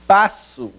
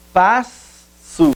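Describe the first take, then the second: First: Said in the usual way. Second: Passo with the double S split across syllables. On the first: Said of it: "separação silábica". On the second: Shown as a demonstration. Teacher showing the class how passo splits at the double S. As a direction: stretch the S in passo to show the split. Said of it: "S dupla na separação silábica".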